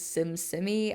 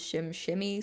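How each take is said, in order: First: The name begins with a plain 's' sound. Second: The name begins with a 'sh' sound. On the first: The speaker calls it wrong. "the way it looks is SimSimmy" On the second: The speaker calls it right. "the correct pronunciation is ShimShimmy"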